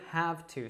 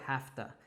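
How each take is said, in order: First: Both words are pronounced fully and separately. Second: The words are reduced and run together. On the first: The speaker calls it wrong. "we wouldn't say have to so much here" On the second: The speaker calls it right. "we'd probably say have to"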